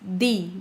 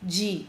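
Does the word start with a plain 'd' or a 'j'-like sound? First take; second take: plain d; j-like. First: It starts with a plain hard 'd' sound. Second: It starts with a soft 'j'-like sound. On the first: This is how it is said in some other regions. "there are some regions in Brazil where people will say D" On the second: This is how it is said in the speaker's southeastern region. "in my region, is pronounced like this. ... Just like letter G"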